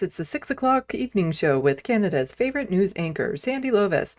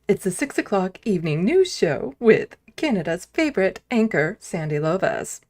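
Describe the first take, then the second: First: It is said in his ordinary voice. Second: It is said in a put-on announcer voice.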